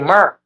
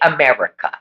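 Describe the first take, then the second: First: The word is clipped, with the first syllable dropped. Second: The word is said in full, with every syllable. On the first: "They say Merca" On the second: "they never say America"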